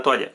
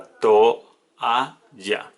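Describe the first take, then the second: First: Said in the usual way. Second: Toalla said slowly as to-a-lla; syllables split apart. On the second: Shown as a demonstration. Teacher showing how toalla splits, slow and deliberate. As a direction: separate toalla into its syllables with small gaps. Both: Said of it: "se separa toalla".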